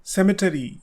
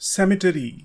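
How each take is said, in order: First: It is said with an American pronunciation. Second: The same.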